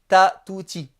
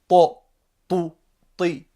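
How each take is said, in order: First: The t sound is light and plain. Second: The t sound is heavy and emphatic. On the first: The speaker calls it wrong. "je ne dis pas ta, tu, ti. Ça, c'est le T normal" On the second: The speaker calls it right. "Là, c'est le T emphatique"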